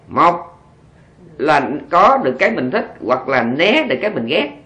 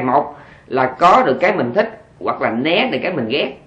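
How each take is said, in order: First: The sentence is spoken at a very slow pace. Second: The sentence is spoken at a fast pace. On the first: "chỗ này phải nói thiệt chậm" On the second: "Nghe kịp không?"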